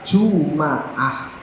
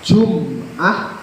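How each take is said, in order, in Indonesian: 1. Vokal a mengikuti m. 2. Tidak ada vokal yang mengikuti m. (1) "bisa dibaca Juma'ah" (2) "memnya disukun"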